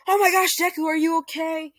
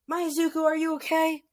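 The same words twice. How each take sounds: First: High, loud panicked mom voice; worried mom. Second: High panicked mother voice; worried mom. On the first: Mother Inko greets beaten son, high frantic worry. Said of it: "Inko runs to him, saying". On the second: Mother Inko corrects name to son, high worried call. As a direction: cry out like a frantic mother. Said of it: "I mean". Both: Retold or imitated.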